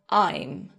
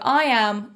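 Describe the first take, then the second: First: The two words merge into one short syllable. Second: Both words are said fully and separately. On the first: "can be contracted to I'm" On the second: "the words I am"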